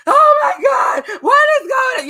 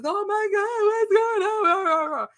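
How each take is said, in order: First: High, loud, slowed screaming imitation; mock scream. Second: High, slowed alarmed cry; alarmed husband. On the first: Teasing husband about his shriek, hammed-up high scream. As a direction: ham up his panicked shriek. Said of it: "You was screaming and all of that". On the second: Retold or imitated. Husband running downstairs at the fight, high alarmed cry. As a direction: imitate him rushing in panicked.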